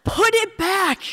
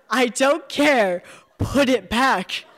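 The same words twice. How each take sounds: First: Much higher, louder, slow shrieking Put it back. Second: Higher, louder, slow, laughing as she insists; laughing insistence. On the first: Rose ordering the narrator to drop it, shriek. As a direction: shriek Put with the pitch falling. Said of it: "Rose shrieks". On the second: Rose insisting the narrator throw it back, laughing. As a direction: Put it back with a laugh, falling on it. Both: Acted.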